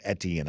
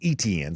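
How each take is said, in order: First: The name starts without a long E sound. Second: The name starts with a long E sound. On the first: The speaker calls it wrong. "I've been mispronouncing it as" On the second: The speaker calls it right. "give the long E sound there at the beginning"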